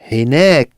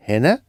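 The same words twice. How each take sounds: First: Hinek with the weight on nek; stress on last syllable. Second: Said in the usual way. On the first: Shown as a demonstration. Teacher contrasting hina and hinek for learners, stress on nek. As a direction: lean on the end of Hinek. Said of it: "emphasizing the last syllable". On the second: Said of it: "rather than hina".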